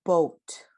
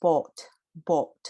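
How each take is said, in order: First: "boat" with a full gliding "oh-oo" diphthong. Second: "boat, boat" with a flat pure O and no glide; pure vowel boat. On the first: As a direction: glide from O into U in "boat". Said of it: "So notice how I said O". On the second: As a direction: hold one steady O in "boat", no U. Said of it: "you'll just say". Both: Shown as a demonstration.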